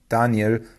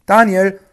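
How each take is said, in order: First: Mildly sad, subdued naming. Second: High, loud call of the name. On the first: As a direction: say the name with understated sorrow. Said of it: "sagte er traurig". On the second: King at the lions' pit, calling anxiously to Daniel. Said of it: "rief er in die Grube hinab". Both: A narrator's reading.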